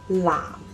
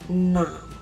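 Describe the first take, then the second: First: The word starts with a non-nasal l sound. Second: The word starts with a nasal n sound. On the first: "without the nasal sound" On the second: "a nasal sound"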